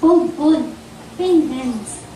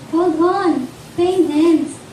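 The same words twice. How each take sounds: First: Slow, spaced words, spelling out the acronym; acronym spelled out. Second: "Hold on, pain ends" said firmly and evenly; repeated acronym. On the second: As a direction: restate the acronym in a steady voice. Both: Shown as a demonstration. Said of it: "acronym ng hope".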